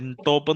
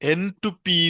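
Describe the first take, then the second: First: It is said as one word: en-top. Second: It is said as separate parts: n, to, p. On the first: The speaker calls it wrong. "എൻ ടോപ്പ് എന്നല്ല. ഞാൻ തെറ്റിച്ചാണ് pronounce ചെയ്തത്" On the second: The speaker calls it right. "എൻ ടു പി എന്നാണ് ഇത് പറയണത്"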